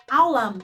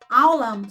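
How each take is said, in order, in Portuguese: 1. A palavra começa diretamente com a vogal. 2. A palavra começa diretamente com a vogal.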